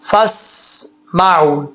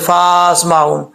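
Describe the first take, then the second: First: The first vowel is kept short. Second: The first vowel is drawn out long. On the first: The speaker calls it right. "ये अलिफ़ गिर जाएगा" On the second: The speaker calls it wrong. "बाज़ औक़ात लोग होते हैं अलिफ़ भी पढ़ देते हैं"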